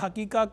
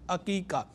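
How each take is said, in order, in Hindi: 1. यह शब्द h ध्वनि से शुरू होता है। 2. यह शब्द ain ध्वनि से शुरू होता है। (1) "उर्फ़ अवाम में इसे हकीका हकीका कहा जा रहा होता है हैदर वाली है के साथ" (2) "दुरुस्त लफ्ज़ अकीका है आइन के साथ"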